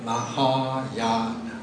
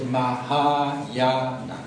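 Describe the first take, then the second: Both takes have the same delivery.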